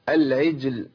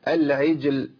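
No difference in how they are said.

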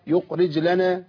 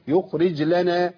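The two takes are said the same way.

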